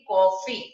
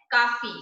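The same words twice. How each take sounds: First: कॉफी loud, with a rounded ऑ; with chandra. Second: काफी with a plain open आ; without chandra. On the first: Teacher showing कॉफी read with chandra's rounded vowel. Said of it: "ओ की ध्वनि को कैसे पढ़ेंगे". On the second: Teacher reading काफी before adding chandra, open vowel. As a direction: say काफी as "kaa-fee", lips unrounded. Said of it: "काफी को कैसे पढ़ेंगे". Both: Shown as a demonstration.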